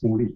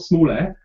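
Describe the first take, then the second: First: The last syllable sounds like 'ee'. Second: The last syllable sounds like 'air'. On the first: The speaker calls it right. "It's Small E" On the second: The speaker calls it wrong. "It's not small air"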